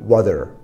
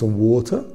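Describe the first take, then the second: First: It is said in an American accent. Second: It is said in a British accent. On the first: "امریکن میگه" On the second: "بریتیش میگه"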